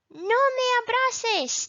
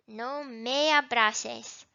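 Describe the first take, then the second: First: High, loud pretend refusal; mock protest. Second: Said in the usual way. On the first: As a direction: act out pushing away a hug, pitched way up. Acted example of refusing a hug.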